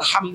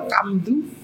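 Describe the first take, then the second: First: It is said in standard Arabic. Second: It is said with a Javanese accent.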